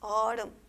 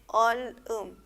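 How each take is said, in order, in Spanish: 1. La consonante final se une a la siguiente sílaba. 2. Cada sílaba se dice por separado, con una pausa. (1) "se combina con la siguiente sílaba" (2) "si yo leo así por sílaba va a ser ol, um"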